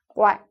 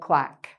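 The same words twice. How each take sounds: First: It is said imitating a duck's call. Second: It is said plainly, like an ordinary word. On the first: "you can make it more like quack" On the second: "in normal speech, you just say quack"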